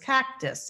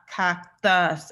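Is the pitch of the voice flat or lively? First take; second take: lively; flat. First: Said higher in pitch with more melody. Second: Said low in pitch with little melody. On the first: "It was a little bit more intonations in his voice" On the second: "the pitch of his voice is lower than the first patient"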